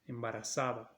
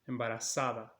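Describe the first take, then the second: Both takes have the same delivery.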